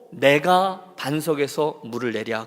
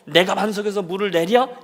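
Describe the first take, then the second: First: 내가 stressed slowly and deliberately as the subject; slow, lean hard on 내가. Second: 내랴 lifted up as a boastful question; rising 내랴. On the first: Shown as a demonstration. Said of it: "내가를 주어로 삼아서". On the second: Retold or imitated. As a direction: toss 내랴 upward, challenging. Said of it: "이러면서 쳤던".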